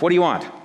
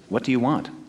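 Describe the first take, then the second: First: The question sounds gruff and rude. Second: The question sounds gentle and kind. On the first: The asker is annoyed by the followers. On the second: The asker sincerely cares what they seek.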